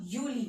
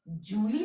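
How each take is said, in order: First: यूली starting with a Y glide, "YOO-lee"; German J as Y. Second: जूली drawn out with a hard English J; जूली opening on "j" as in "jam"; wrong J sound. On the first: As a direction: say यूली with "yoo", falling at the end. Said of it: "जुलाई को क्या बोलते हैं". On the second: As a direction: misread जूली as "JOO-lee". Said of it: "जूली मत पढ़ना". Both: Shown as a demonstration.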